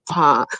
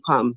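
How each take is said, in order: First: The name is said imitating others' pronunciation. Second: The name is said in her own pronunciation. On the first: This is how other people say her name. "them pronounce it like Pam" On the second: This is how she says her own name. "I tell them my name Pam"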